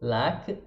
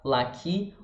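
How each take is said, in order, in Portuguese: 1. A palavra termina em consoante sem vogal. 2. A palavra termina com uma vogal acrescentada.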